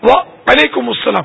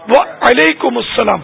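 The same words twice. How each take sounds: First: The opening 'wa' is held with a slight break. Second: The same.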